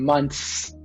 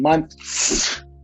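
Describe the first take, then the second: First: Some sounds are dropped, as in casual speech. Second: Every letter is sounded as it is spelled. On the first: The speaker calls it right. "we're saying months" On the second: The speaker calls it wrong. "we're not saying months"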